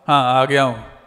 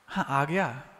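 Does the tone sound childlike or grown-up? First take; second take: grown-up; childlike. First: It sounds distant and grown-up. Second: It sounds eager and childlike.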